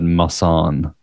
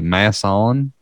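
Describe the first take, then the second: First: The name is said in a French style. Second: The name is said in a country American style. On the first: "this is probably going to want to be French, so I said Masson" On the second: "country it up and say Masson"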